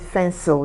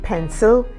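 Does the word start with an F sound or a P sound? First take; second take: F sound; P sound. First: The word starts with an F sound. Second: The word starts with a P sound. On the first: The speaker calls it wrong. "they call it fencil" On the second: The speaker calls it right. "they want to say pencil"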